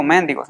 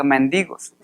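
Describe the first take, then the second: First: "mendigos" stressed on MEN; stress on first syllable. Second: "mendigos" stressed on DI; stress on second syllable. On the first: Preacher showing the slip to avoid, "mendigos" stressed on MEN. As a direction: say "mendigos" as MÉN-di-gos, the mistaken way. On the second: Preacher correcting himself on beggars, "mendigos" stressed on DI. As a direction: say "mendigos" as men-DI-gos. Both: Shown as a demonstration. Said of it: "No digo mendigos, sino que mendigos".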